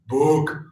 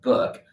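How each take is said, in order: First: The vowel sounds deep, dark and dramatic. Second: The vowel sounds ordinary and light. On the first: "a very dramatic one, really deep" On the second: "not like book"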